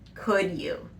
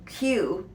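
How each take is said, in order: First: Both words are said fully with clear emphasis. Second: The two words blur into one short syllable. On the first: It is a pleased reply accepting an offer of help. "you're actually emphasizing those words" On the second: It is a request asking someone to do something. "it is reduced to Q"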